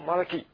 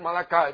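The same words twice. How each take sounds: First: The word ends with an 'ee' sound. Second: The word ends with an 'eye' sound. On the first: This is how Hebrew speakers say it. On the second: This is the Americanized way of saying it. "we always call it Malachi because after all, that's the problem with American. Everything is I"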